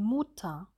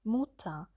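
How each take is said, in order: First: The u is tense with a closed jaw. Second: The same.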